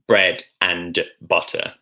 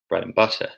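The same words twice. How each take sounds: First: The word 'and' is said with a full vowel. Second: The word 'and' is reduced to a weak 'n'. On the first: The speaker calls it wrong. "It's more efficient than bread and butter" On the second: The speaker calls it right. "It's easier to pronounce when you do it when you do it like this"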